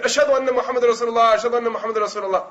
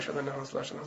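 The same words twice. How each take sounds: First: Louder adhan. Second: Very soft, low mumble; quiet adhan. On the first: Boy obeying the order to be louder, raised call. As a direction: ring the testimony out clearly. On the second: Boy lapsing in his adhan, very quiet. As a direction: let the words nearly vanish under your breath. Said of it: "he would say it quietly". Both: Retold or imitated.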